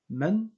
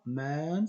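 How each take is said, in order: First: The vowel is short, not drawn out. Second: The vowel is long and drawn out. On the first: The speaker calls it right. "ça se prononce man" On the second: The speaker calls it wrong. "et non pas man, c'est pas prolongé"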